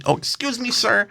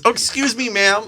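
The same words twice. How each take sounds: First: High, meek excuse me, sir; mock timid guy. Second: High, meek excuse me, ma'am; mock timid guy. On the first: Imitating the man apologizing to him, high and meek. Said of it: "he does it to me". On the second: Imitating the man apologizing to the woman, high and meek. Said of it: "And then he goes". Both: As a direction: squeak the apology.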